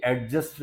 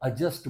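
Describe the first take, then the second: First: एडजस्ट as "ad-just", with the d sounded; wrong pronunciation. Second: एडजस्ट as "a-just", silent d; correct pronunciation. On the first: Teacher showing what not to say, wrong pronunciation. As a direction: sound a clear d before j in एडजस्ट. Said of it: "एडजस्ट नहीं बोलेंगे". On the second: Teacher giving students the right form, correct pronunciation. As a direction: drop the d in एडजस्ट. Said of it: "एडजस्ट बोलेंगे". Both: Shown as a demonstration.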